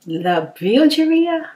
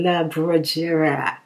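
First: Slow, drawn-out try at "La Bilgeria"; sounding out "La Bilgeria" carefully; attempted French name. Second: "La Brugera" said slowly, syllable by syllable; carefully retry "La Brugera"; second try at the name. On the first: Reading a viewer's name aloud, slow and careful. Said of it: "I wish I could say that". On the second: Retrying a viewer's name, slow and careful. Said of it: "Let me try to say it again". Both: Shown as a demonstration.

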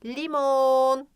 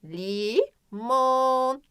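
First: "Limon" as one word, the o held; emphasised O. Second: "limon" slowly as long "lii", pause, long "moon"; split syllables, stretched O. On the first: Teacher showing where O is, lengthened o in "Limon". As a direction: lengthen the last vowel of "Limon". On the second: Teacher showing where O is, slow syllables in "limon". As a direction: break "limon" in two and hold each vowel. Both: Shown as a demonstration. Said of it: "Ortasında vurguluyorum".

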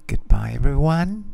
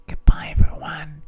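First: Voiced, lips close to the mic; right in your ear. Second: Close-mic whisper right in the ear. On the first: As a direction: intimate close-mic farewell, lightly raised. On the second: Acted. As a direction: breathe the goodbye into the mic. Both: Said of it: "I'm going to whisper in my microphone".

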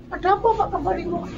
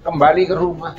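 First: High falsetto, softer, asking why he came home; high questioning voice. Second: Said in the usual way. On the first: Acted. A bystander asks the young man why he is back, in a high voice. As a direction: squeak it up high as a curious bystander.

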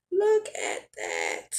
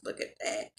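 First: Much lower, drawn-out marvel; low and slow. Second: Breathy whisper of awe. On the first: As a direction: sink the voice and savour it. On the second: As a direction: hush it out in wonder. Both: Real, not acted. Marvelling at the finished food.

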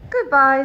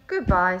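First: Loud farewell to someone far away; loud storybook call, Bear's turn; called-out goodbye. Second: Low, loud echo of a goodbye; lightly voiced moon, pitched down; moon's reply. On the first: Bear calls farewell to the moon. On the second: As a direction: answer back in a lower voice. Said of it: "said the moon". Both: A narrator's reading.

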